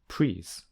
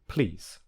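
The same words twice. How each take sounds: First: An r sound is used instead of l. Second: An l sound is used as normal. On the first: The speaker calls it wrong. "and please instead of" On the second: The speaker calls it right. "instead of please"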